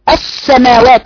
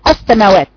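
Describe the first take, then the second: First: The s sound is drawn out and flows. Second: The s sound is closed off abruptly. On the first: The speaker calls it right. "بجري الصوت" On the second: The speaker calls it wrong. "بعض الناس بتقفل صوت تقول السماوات، السماوات غلط"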